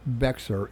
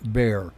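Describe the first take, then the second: First: The word is pronounced the way it is spelled. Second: The word is pronounced differently from its spelling. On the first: The speaker calls it wrong. "it's spelled Bexar, but it's not Bexar" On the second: The speaker calls it right. "it's Bexar"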